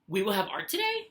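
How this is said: It is said as a question, rising. The speaker is asking the listener. "Am I asking you"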